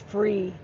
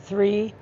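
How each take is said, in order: First: The word begins with an f sound. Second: The word begins with a th sound.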